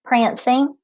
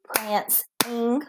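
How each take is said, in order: First: Said in the usual way. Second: Prancing drawn out softly as pranc-ing; syllables split. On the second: Shown as a demonstration. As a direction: say prancing in two soft beats. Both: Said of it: "Two syllables".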